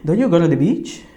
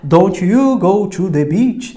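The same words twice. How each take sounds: First: The words are run together without separations. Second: Each syllable is said separately and distinctly.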